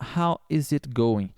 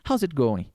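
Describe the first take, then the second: First: The word 'is' is said fully and separately. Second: The 'is' shrinks to a z sound, said quickly. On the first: "se você quiser falar how is it going, a pessoa vai entender" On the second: "Bem rápido assim"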